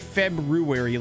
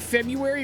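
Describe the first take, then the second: First: The first R sound is clearly pronounced. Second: The first R sound is left out. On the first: "like it's spelled" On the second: "leave out that first R"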